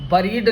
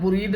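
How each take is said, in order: First: The first vowel is a short weak uh sound. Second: The first vowel sounds like the u in put. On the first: "बरीड नहीं होता है, आधा ए नहीं आता" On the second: "बुरीड नहीं होता है"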